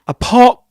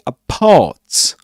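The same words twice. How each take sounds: First: The final t is a glottal stop. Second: The final t is clearly released. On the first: "that's a glottal stop there at the end of apart" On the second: "So he doesn't say apart"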